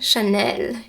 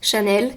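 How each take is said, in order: First: The word is said with a French pronunciation. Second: The word is said with an English pronunciation. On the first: The speaker calls it right. "Chanel in French" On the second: The speaker calls it wrong. "it's so weird to say it in, like with the English uh, pronunciation"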